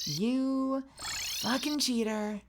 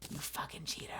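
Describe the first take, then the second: First: Slow, higher, stretched insult; drawn-out taunt. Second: Hissed whisper insult. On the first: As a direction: stretch every word out. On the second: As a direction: whisper it sharply. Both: Real, not acted.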